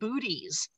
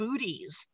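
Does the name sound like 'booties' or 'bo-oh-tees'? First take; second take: booties; booties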